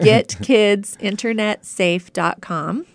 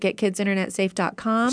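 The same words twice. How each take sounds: First: It is said slowly and deliberately. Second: It is said at a normal, quick pace.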